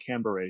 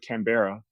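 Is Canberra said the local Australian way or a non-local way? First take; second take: local Australian; non-local. First: It is said in the local Australian way. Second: It is said in the speaker's own non-local way. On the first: The speaker calls it right. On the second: The speaker calls it wrong.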